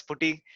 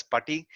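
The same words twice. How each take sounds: First: Putty said as POO-tee, rounded first vowel; POO-tee pronunciation. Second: Putty said as PUTT-ee, first vowel as in "but"; PUTT-ee pronunciation. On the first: Showing students the other way some people say it, putty as POO-tee. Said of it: "Some people call as putty". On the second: Showing students one way to pronounce it, putty as PUTT-ee. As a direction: say putty with an open "uh" in the first syllable. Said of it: "I don't know how it's pronounced". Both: Shown as a demonstration.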